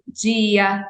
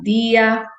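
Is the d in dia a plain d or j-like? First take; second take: j-like; plain d. First: The d before i sounds like j. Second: The d before i is a plain d. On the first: "no Sudeste é" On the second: "não palatalização do T e do D"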